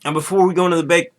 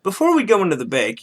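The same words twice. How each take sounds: First: Quick tongue-slip saying bake for break; fast flubbed break. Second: Bake said again for break, a bit higher; retry but land on bake again; repeated slip. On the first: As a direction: rush it out, fumbling bake for break. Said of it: "break, aha". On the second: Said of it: "yeah, sorry". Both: Real, not acted.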